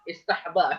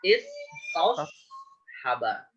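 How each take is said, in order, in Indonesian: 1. Bunyi s dan h di tengah menyatu. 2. Bunyi s dan h di tengah tetap terpisah. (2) "yang benar adalah istos haba"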